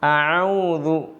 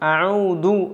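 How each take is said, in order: First: The word starts with a deep throat ain sound. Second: The word starts with a plain glottal stop. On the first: The speaker calls it right. "ഇങ്ങനെ ഐനാണ് കേൾക്കേണ്ടത്" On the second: The speaker calls it wrong. "ഐൻ ഹംസായി മാറുന്നതും"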